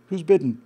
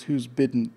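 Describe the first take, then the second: First: Louder with a falling end, landing the joke; louder punchline. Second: Said in the usual way. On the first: Retold or imitated. Host savoring a viewer's pun for the audience, louder.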